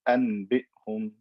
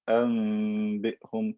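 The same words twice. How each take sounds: First: A clear n sound comes before the b. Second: A nasal m sound comes before the b. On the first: The speaker calls it wrong. "I can't say أنبئهم, that's hard" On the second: The speaker calls it right. "convert the noon into meme and then do غنة"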